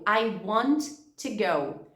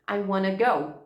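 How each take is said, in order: First: Each word is said fully and separately. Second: Want to is run together as wanna.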